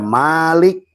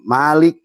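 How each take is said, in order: First: The first vowel is held long. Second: The first vowel is kept short.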